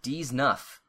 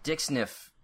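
First: It sounds like 'deez nuff' with a z sound. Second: It sounds like 'dick sniff' with a hard k. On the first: The speaker calls it right. "It's pronounced D's nuff" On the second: The speaker calls it wrong. "You don't pronounce dick sniff right"

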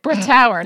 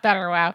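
First: The name begins with 'Brett' and ends in 'auer'. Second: The name begins with 'Better' and ends in 'wow'. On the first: The speaker calls it right. "Brettauer, not Betterwow" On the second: The speaker calls it wrong. "That is not how you say it"

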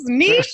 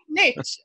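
First: The word is said the non-American way. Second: The word is said the American way. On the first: The speaker calls it right. "It is niche, darlings" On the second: The speaker calls it wrong. "not niche"

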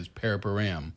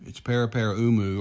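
First: It is said the shortened British way. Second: It is said the full Maori way.

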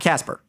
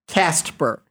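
First: No t sound comes before the p. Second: A t sound comes before the p. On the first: This is the other, well-known character. The speaker calls it wrong. "not Casper" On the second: This is the show's own character. The speaker calls it right. "it's Cast-per"

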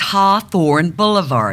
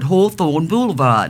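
First: It is spoken with the mouth held back. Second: It is spoken with the mouth pushed forward. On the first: "But it's" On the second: "we move everything forward"

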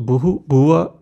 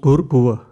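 First: The first word has two syllables, ending in -hu. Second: The first word has one syllable, ending in r. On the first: Each word is read on its own. "when you read the Gayatri Mantra, you will see Bhuhu, Bhuvah" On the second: The words are joined together in recitation. "when we combine them together"

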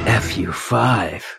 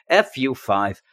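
First: It is said in a sexy voice. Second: It is said in a normal voice.

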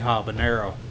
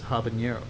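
First: The middle consonant is a plain n sound. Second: The middle consonant is an ny sound. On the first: This is how it is said in Texas. The speaker calls it wrong. "I've always pronounced it. I'm from Texas. I say habanero" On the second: This follows the spelling on the label. The speaker calls it right. "they put a little squiggly on the end, so it's habanero"

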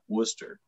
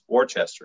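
First: The name is said like 'Wooster'. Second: The name is said with every spelled syllable. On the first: This is how the New England city is said. "It's not Worcester... I don't see a O-O" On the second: This is how the local street name is said. "a street spelled exactly the same thing, but it's Worcester"

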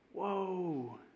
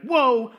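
First: It is said in a sad, grieving tone. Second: It is said in a harsh, condemning tone.

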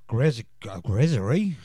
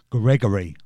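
First: The name is slurred, with a buzzing middle sound. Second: The name is said clearly, with a hard g sound. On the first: The speaker calls it wrong. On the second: The speaker calls it right.

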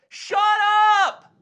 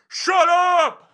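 First: It is a bright, high yell. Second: It is a lower, scarier yell.

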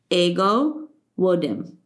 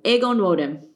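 First: No N sound is heard between the names. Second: An N sound is heard between the names. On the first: The speaker calls it right. "That's it" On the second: The speaker calls it wrong. "I said the N again"

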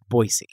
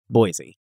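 First: The middle consonant is an S sound. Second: The middle consonant is a Z sound. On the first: This is how the locals in Idaho say it. The speaker calls it right. "With an S instead of a Z" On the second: This is how most of the country says it. The speaker calls it wrong. "What did I say?"

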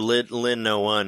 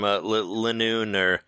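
First: The name ends sounding like 'no one'. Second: The name ends with a single 'noon' sound.

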